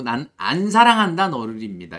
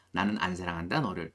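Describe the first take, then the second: First: 난 안 사랑한다 너를 said louder as the correct reading; emphatic correct version. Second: 나는 안 사랑한다 너를 repeated much softer and lower. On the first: Teacher stresses the correct translation, loudly. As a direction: lean on the right translation. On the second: Teacher quietly repeats the translation, softly. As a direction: murmur it back gently. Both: Shown as a demonstration. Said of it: "이렇게 해석을 해주시면 좋습니다".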